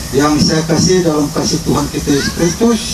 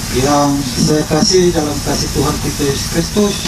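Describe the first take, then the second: Both takes have the same delivery.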